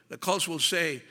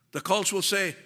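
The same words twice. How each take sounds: The two takes are said the same way.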